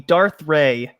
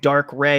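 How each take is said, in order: First: The first word ends with a TH sound. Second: The first word ends with a K sound. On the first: The speaker calls it right. "it should be Darth Ray" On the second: The speaker calls it wrong. "people are saying Dark Ray"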